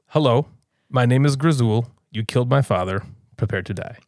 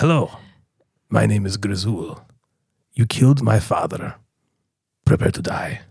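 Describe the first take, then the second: First: It is said in a plain voice. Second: It is said in a gravelly voice.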